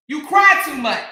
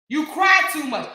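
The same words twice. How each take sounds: First: Louder, cutting; firm jab. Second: Raised voice on cry; shouted repeat. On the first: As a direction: say it straight to her face. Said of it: "repeated louder". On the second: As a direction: yell it back at her. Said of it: "repeated with shout". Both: Shown as a demonstration.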